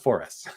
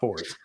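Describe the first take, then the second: First: It is said as four, then the letter S. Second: It is said as one word ending in z. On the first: The speaker calls it right. "that's the four S" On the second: The speaker calls it wrong. "kind of pronouncing it like a Z"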